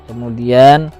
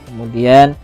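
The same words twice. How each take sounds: Both takes have the same delivery.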